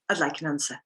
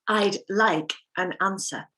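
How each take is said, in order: First: The k sound runs straight into the next word. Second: The k sound is kept separate from the next word.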